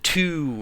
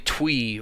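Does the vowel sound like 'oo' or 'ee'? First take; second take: oo; ee. First: The vowel sounds like 'oo'. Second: The vowel sounds like 'ee'. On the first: This is the usual modern pronunciation. "We pronounce it two" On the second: This is the older original form of the name. "But that's really twee"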